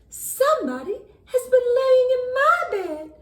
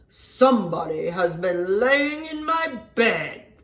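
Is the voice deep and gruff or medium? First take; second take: medium; deep gruff. First: It is said in a medium voice. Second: It is said in a deep, gruff voice.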